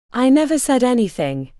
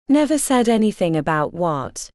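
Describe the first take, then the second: First: Put-on a light Indian accent, lifted a little; lightly voiced nervous man with an Indian accent; thick Indian accent. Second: Said in the usual way. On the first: A narrator's reading. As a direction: Indian accent, only hinted. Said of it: "he said in a thick Indian accent". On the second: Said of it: "Kitty echoes him, her own voice".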